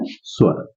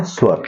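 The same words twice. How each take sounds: First: Whispered answer. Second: Said in the usual way. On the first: Shown as a demonstration. Teacher whispers स्वर as the answer for the class. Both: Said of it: "कौन करता है?".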